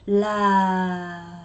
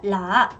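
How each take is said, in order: First: The pitch falls on the word. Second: The pitch stays level on the word. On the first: The speaker calls it right. "라 하고 내리세요" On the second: The speaker calls it wrong. "이거 제발 라, 라 이거 하지 말고"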